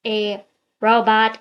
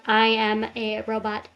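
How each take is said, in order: First: Said in the usual way. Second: Flat, even robot voice. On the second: Shown as a demonstration. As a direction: speak like a monotone robot. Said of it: "not the ones that sound like a robot".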